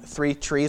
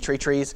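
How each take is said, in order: First: Three starts with a th sound. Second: Three starts with a plain t sound.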